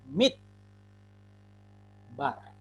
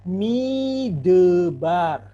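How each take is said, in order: First: No vowel is sounded between d and b. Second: A short vowel is sounded between d and b. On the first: The speaker calls it right. "sewa ini tidak dibaca" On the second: The speaker calls it wrong. "Kalau bodoh-bodohnya artinya dibaca tanpa mengetahui kaidah sewa"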